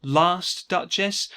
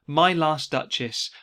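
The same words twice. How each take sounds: First: Slow, with LAST drawn out and pressed; stress on last. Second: Slow, with MY pressed hard and falling; stress on my. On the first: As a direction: hit "Last" in "Last duchess", slowly. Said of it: "Well, last implies that there will be more". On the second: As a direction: lean on "My" in "My last duchess", slowly. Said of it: "My is a possessive word". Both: Shown as a demonstration.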